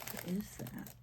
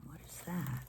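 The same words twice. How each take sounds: First: What is that asked aloud, higher, curious; puzzled question. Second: What is that whispered under the breath; whispered question. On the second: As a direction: mutter it to yourself. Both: Real, not acted. Puzzled question, whispered then voiced.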